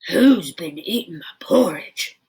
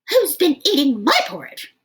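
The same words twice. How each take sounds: First: It is roared in a great big voice. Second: It is shouted in a medium-sized voice.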